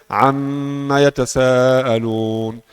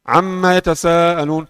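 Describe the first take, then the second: First: It is recited at a normal, moderate speed. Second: It is recited quickly with a short nasal hold. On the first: The reading is paced for prayer. "Baca biasa" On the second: The reading is paced for quick recitation. "Tapi kalau hadr lebih cepat"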